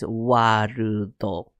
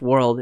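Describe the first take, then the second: First: It is said the Japanese way, ending on a vowel. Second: It is said the English way, ending on a consonant. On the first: "In Japanese" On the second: "In English"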